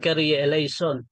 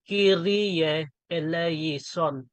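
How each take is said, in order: First: The syllables are run together quickly. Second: Each syllable is said separately and distinctly. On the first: The speaker calls it wrong. "mali din yon yung pagka pagka-pronounce mo" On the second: The speaker calls it right. "iisa-isahin mo yan"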